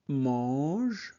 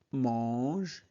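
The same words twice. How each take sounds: The two takes are said the same way.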